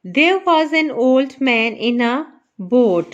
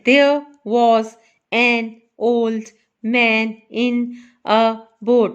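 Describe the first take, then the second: First: Said in the usual way. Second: Put-on "there, was, an, old, man, in, a, boat" each set apart; word by word. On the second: Shown as a demonstration. ("there was an old man in a boat" हर शब्द अलग-अलग) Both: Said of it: "हर word जो है इसका एक ही part है".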